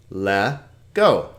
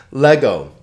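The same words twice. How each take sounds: First: Le-go split into Le, then go; syllable by syllable. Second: Said in the usual way. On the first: Shown as a demonstration. Teacher showing two vowels, Le-go said in two separate parts. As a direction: pause between the two syllables of Le-go. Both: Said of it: "two syllables".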